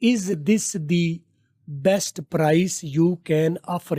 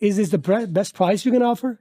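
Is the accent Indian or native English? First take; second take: Indian; native English. First: It is said in an Indian English accent. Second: It is said in a native English accent. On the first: "ये आप लोकल बोलते हैं।" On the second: "गोरा कैसे बोलता है।"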